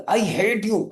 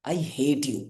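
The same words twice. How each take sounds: First: Higher, sharp angry outburst; a girl shouting I hate you at a boy; shouted in anger. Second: Soft, shy and affectionate; a shy girl saying I hate you tenderly; sweet soft tone. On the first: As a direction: yell it at him and storm off. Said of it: "उसने चिल्ला के बोला". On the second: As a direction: say it lovingly, almost teasing. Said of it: "एकदम प्यारी सी soft tone में". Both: Shown as a demonstration.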